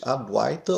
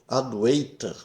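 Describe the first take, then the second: First: The vowel before the 't' sounds like 'ai'. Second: The vowel before the 't' sounds like 'ei'. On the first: The speaker calls it right. "É pronunciado como se fosse Adwaita" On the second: The speaker calls it wrong. "não deve ser pronunciado como Adwaita ... Não existe ei em sânscrito"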